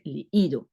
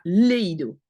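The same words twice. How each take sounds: First: Leído with the í stressed, le-Í-do. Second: Leído without the stress on the i, run together as lei-do; wrong stress. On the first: Teacher giving the right leído, stress on the i. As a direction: lean on the í in leído. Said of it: "l'accent est sur le i". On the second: Teacher showing the wrong leído, no stress on the i. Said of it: "C'est pas leído". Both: Shown as a demonstration.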